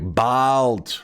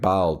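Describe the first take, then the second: First: The word is said in an annoyed tone. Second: The word is said in a neutral tone. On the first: "it was annoyed" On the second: "First time, she's like"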